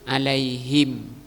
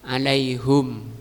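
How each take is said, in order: First: The vowel after the h is i. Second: The vowel after the h is u. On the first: "yang kedua kusriha, di kasrah" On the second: "pertama di dhammah haknya"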